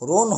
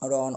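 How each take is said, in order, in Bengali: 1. স্বরধ্বনিটি সংবৃত, 'o'-এর মতো। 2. স্বরধ্বনিটি বিবৃত, 'aw'-এর মতো। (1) "রোন হবে না" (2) "আমাদের বিবৃত উচ্চারণটি থাকবে"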